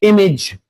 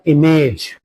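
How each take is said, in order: First: The ending is a short 'ij' sound. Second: The ending is a full 'age' sound. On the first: The speaker calls it right. "it will be pronounced as ij" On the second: The speaker calls it wrong. "not image"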